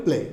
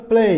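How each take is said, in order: First: Said in the usual way. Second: "প্লে" stretched into play-ee, pitched up; drawn-out ay glide. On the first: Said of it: "আমরা কিন্তু normally বলি প্লে". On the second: Shown as a demonstration. Teacher corrects the usual pronunciation, long gliding vowel. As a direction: hold "প্লে" long, ending on ee. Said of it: "উচ্চারণ হবে প্লে".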